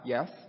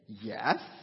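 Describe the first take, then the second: First: The word is said in a plain, straightforward tone. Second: The word is said in a sarcastic, mocking tone. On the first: The speaker is simply agreeing. "you would perceive that I'm answering in the affirmative" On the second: The speaker implies more than simple agreement. "Jay's a sarcastic guy. Why would he say yes like that?"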